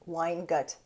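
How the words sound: It is pronounced with an English accent. "I've said it in the English way"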